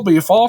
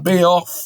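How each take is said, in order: First: The r sound comes after the f. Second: The r sound comes before the f. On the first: The speaker calls it wrong. "c'est pas Béfort son nom" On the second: The speaker calls it right. "c'est Béorf"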